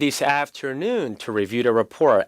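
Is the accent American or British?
American. It is said in an American accent. "미국 발음일 때"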